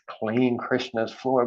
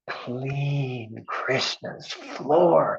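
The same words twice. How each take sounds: First: It is said plainly, without extra energy. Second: It is said with strong enthusiasm and energy.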